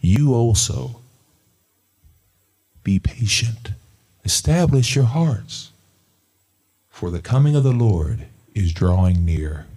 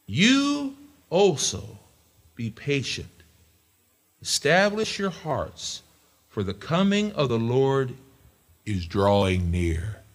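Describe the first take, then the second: First: Loud, firm scripture repeat; louder reading. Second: Slow, high, drawn-out reading; scripture reading. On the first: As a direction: drive the verse home. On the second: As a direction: read it like a promise. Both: Shown as a demonstration. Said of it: "read that one more time".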